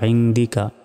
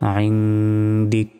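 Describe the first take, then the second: First: The word ends with a final vowel sound. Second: The word ends on a consonant sound. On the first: The reading continues without a stop. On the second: The reader stops at this word.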